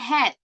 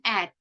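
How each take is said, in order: First: It is full, with h and a strong vowel. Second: It is reduced, with no h sound. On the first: "it has a little jump on that A" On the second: "The H is not pronounced"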